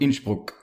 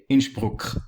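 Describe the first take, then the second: First: It ends softly, without the hard k sound. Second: It ends with a strong, hard k sound. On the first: This is how South Tyroleans say it. "South Tyrolean is way softer" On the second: This is how Northern Tyroleans say it. "It has this k sound at the end"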